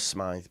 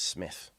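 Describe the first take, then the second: First: The name rhymes with 'scythe'. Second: The name rhymes with 'myth'. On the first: The speaker calls it wrong. "it might read as Smythe" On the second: The speaker calls it right. "but it's Smith"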